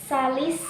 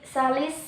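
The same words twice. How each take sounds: Both takes have the same delivery.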